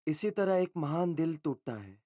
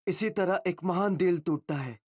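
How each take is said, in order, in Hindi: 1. यह पंक्ति कम ऊर्जा से बोली गई है। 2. यह पंक्ति ज़्यादा ऊर्जा से बोली गई है।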